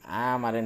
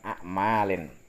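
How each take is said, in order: First: The first vowel is drawn out long. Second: The first vowel is short. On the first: "bacanya panjang" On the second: "kalau aslinya kan amalin"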